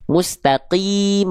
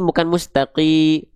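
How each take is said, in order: First: Mustaqim stretched with a clear final qim; slow Mustaqim. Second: Mustaqi cut short, final m dropped; clipped mustaqi. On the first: Teacher modelling correct reading of Mustaqim, slow. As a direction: draw out Mustaqim carefully. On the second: Teacher showing the mistaken clipped reading. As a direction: say mustaqi with the ending swallowed. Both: Shown as a demonstration.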